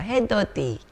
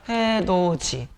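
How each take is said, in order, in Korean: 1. 마지막 음절은 'd' 소리로 시작해요. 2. 마지막 음절은 'j' 소리로 시작해요. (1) "아주 귀여운 발음이 나옵니다" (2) "디귿이 지읒으로 바뀌는 구개음화"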